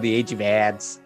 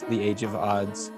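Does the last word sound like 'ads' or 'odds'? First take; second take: ads; odds. First: The last word has a fronted 'a' vowel. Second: The last word has an open 'o' vowel.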